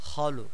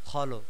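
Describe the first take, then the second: The two takes are said the same way.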